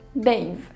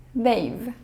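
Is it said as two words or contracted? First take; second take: contracted; contracted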